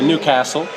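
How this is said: The vowel in 'castle' sounds like 'ass'. The speaker calls it right. "which is it's an ass, like the Americans say"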